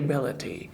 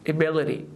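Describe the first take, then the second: First: The t near the end sounds like a clear t. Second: The t near the end sounds like a soft d. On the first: The speaker calls it wrong. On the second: The speaker calls it right.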